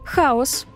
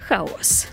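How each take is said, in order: First: The stress is on the first syllable. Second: The stress is on the second syllable. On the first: It means the boundless primordial void of mythology. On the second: It means disorder and confusion.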